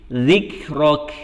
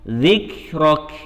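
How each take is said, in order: Both takes have the same delivery.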